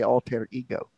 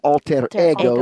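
First: It is said with an English pronunciation. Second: It is said with a Latin pronunciation. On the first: "but in English, we would say alter ego" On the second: "In Latin, it would be alter ego"

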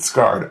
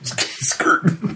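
First: The name is said with the vowel of 'scarred'. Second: The name is said with the vowel of 'skirt'. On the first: The speaker calls it right. "but we pronounce it Scarred" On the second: The speaker calls it wrong. "because you can't go skirt"

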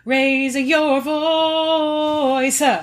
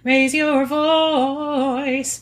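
First: Extra shadow vowels are added between sounds. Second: It is said without added vowel sounds. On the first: "With Rainbow it would be" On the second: "like Sister Act"

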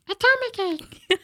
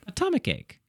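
First: It is said in an Elmo voice. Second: It is said in a normal voice.

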